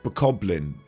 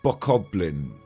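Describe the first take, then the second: First: It is said with a middle 'koh' and 'blin' ending. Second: The same.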